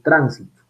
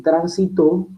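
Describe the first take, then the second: First: The stress is on the first syllable. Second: The stress is on the last syllable. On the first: It can be a noun. "poner el acento, la prosodia en la sílaba prenuclear" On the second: It can be a verb. "puse la acentuación o articulé la acentuación en la sílaba postnuclear"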